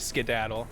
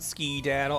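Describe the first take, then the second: First: The first syllable sounds like 'sked'. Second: The first syllable sounds like 'ski'. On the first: It is the speaker's usual way of saying it. "I typically say skedaddle" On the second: It fits the character's way of talking. "I like to pronounce it ski-daddle"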